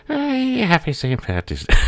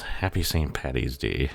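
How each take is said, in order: First: Hammed-up high Irish accent, louder; a silly stage-Irish greeting, pitched way up; Irish impression. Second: Said in the usual way. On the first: Shown as a demonstration. Mocking the Irish for Saint Patty's Day in a high, louder Irish accent. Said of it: "See, there's the accurate impression". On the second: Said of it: "there's the accurate impression".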